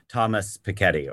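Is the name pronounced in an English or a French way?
English. The name is said with an English-style pronunciation.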